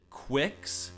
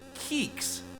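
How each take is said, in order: First: It starts with 'kw' and has a short i. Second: It sounds like 'keeks' with a long ee. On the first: "some people do pronounce it Quicks" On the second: "some people pronounce it Keeks"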